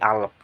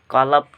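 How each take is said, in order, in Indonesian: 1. Kata ini diawali dengan hamzah. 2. Kata ini diawali dengan bunyi q yang dalam. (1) "berubah menjadi bunyi letup atau global hamzah dalam dialek perkotaan" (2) "Bunyi qaf di fusha dibaca qaf"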